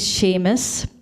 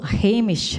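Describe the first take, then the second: First: The name begins with an SH sound. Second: The name begins with an H sound.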